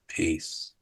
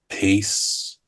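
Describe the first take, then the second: First: It is spoken more quietly than normal. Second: It is spoken at normal conversational volume. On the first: "but I'd say it quieter" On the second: "at your normal level"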